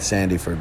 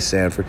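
First: The name is pronounced in full. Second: The name is pronounced in a shortened form. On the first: This is the technically correct pronunciation. "That's technically how you say it" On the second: This is the speaker's own casual pronunciation. "But I say Sanford"

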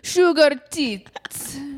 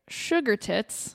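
First: It is said in a put-on Italian accent. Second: It is said in a plain, normal voice.

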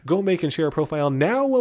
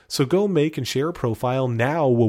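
First: The final word is short and exclaimed. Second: The final word is long and drawn out. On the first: "and there's an exclamation point. Let me try it again" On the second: "I'm saying it that way because it says now, and I believe Jamie has here six W's"

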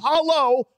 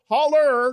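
First: The word ends in an oh sound. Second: The word ends in an er sound. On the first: The speaker calls it wrong. "not hollow" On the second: The speaker calls it right.

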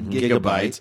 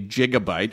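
First: The word begins with a hard G sound. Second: The word begins with a soft J sound. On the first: The speaker calls it right. "we say gigabyte" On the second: The speaker calls it wrong. "we don't say gigabyte"

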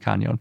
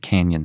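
First: The middle is said with an ny sound. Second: The middle is said with a plain n sound. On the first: The speaker calls it right. "it's got an enye, so it really seems like it should be Canyon" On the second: The speaker calls it wrong. "some people pronounce it Canyon City"

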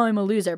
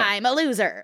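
First: It is said in a sad, self-pitying way. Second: It is said in a cheerful, proud way. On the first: The speaker is putting herself down. "Not like, oh" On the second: The speaker fondly embraces being a loser. "I say loser as like an endearing term"

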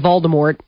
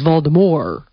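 First: The final T sound is clearly pronounced. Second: The final T sound is left off. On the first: This is how most people say the name. "We all say Voldemort" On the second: This is how the author says the name. "the way she pronounces it is Voldemort. Like the T, you leave it off"

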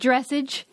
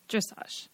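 First: It is pronounced by guessing from the spelling. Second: It is pronounced the standard way. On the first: The speaker calls it wrong. "I called it like dressage because I'd only ever read it" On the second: The speaker calls it right. "you were like, dressage"

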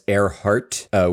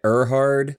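First: The name ends with a T sound. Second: The name ends with a D sound. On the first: The speaker calls it wrong. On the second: The speaker calls it right.

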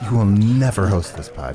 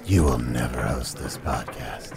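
First: It is yelled angrily. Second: It is said in a sexy voice.

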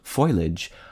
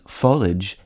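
First: It has two syllables, starting like foil. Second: It has two syllables, ending like marriage. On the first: "its association with the non-standard spelling F-O-I-L-A-G-E" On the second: "consistent with the pronunciation of the I-A-G-E ending in marriage and carriage"

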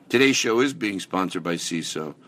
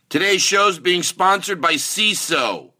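First: It is said warmly, with affection. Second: It is yelled like a typical ad read.

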